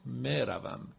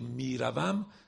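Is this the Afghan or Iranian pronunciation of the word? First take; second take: Afghan; Iranian. First: It is said with an Afghan Persian pronunciation. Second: It is said with an Iranian Persian pronunciation. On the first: "افغانیا و تاجیکا ... میگن مروم" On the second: "در فارسی ایران ... میگیم میروم"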